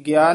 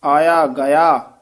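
First: ਗਿਆ quick, run together as "gyā"; squashed vowel. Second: ਆਇਆ ਗਿਆ slow and loud, "gayā" in two full syllables; full vowels. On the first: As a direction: clip ਗਿਆ into one syllable, gyā. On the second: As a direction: draw out ਗਿਆ as ga-yā. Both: Shown as a demonstration. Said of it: "ਇਹ ਗਿਆ ਨਹੀਂ ਕਹਿਣਾ".

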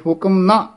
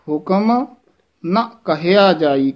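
First: ਹੁਕਮ ਨਾ run together, stop after ਨਾ; misplaced pause. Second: Rising ਹੁਕਮ, break, then ਨਾ ਕਹਿਆ ਜਾਈ; ਹੁਕਮ set apart before a slow phrase; pause after ਹੁਕਮ. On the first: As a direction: join ਹੁਕਮ to ਨਾ. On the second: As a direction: halt after ਹੁਕਮ, not after ਨਾ. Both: Shown as a demonstration. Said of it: "ਇੱਥੇ ਨਹੀਂ ਰੁਕਣਾ".

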